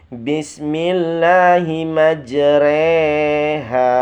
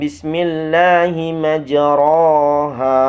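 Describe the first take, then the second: First: The vowel after r leans toward 'e'. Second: The vowel after r is a clear 'a'. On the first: "dibaca imalahnya menjadi Bismillahi majreha. Ro berubah menjadi re" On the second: "dasar bacaannya"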